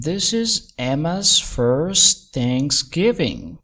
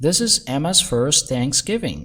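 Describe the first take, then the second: First: Very slow, word by word; slow, carefully separated words; slowed-down teaching repeat. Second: Said in the usual way. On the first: Shown as a demonstration. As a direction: draw each word out for learners. Teacher repeats line slowly for learners.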